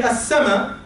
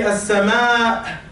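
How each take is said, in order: First: "as-sama'" short, with no lengthened final a; Egyptian pronunciation. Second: "as-sama'" slow, last a held long before the catch; drawn-out vowel. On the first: Teacher showing Egyptian speech, "as-sama'" with short final vowel. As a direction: say "as-sama'" quickly, Egyptian style, short ending. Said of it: "in Egypt, we say". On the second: Teacher showing unfamiliar recitation, "as-sama'" with long held ending. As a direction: stretch the final vowel of "as-sama'". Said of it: "we don't speak like this in Egypt". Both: Shown as a demonstration.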